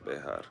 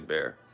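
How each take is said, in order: First: The name is said the Spanish way. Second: The name is said the English way. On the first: This is how it is supposed to be pronounced. "no one actually says behar" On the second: This is how everyone locally says it. "They say bear"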